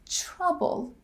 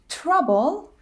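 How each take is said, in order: First: It begins with a ch-like sound. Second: It begins with a plain t sound. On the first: "The qualities of these sounds blend together and sound different" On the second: "Trouble becomes"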